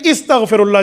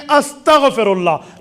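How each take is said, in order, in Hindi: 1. यह शब्द 'i' स्वर से शुरू होता है। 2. यह शब्द 'a' स्वर से शुरू होता है। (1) "लोग पढ़ने में गलती करते हैं" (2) "जी नहीं, पढ़ने में अस्तगफिरुल्लाह"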